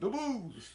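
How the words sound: It is said in a Chicago accent.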